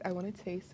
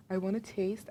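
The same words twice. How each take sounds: First: Softer, under the breath; soft aside to herself while tasting; quiet repeat. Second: Said in the usual way. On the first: Real, not acted. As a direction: murmur "I wanna taste" to yourself, much softer.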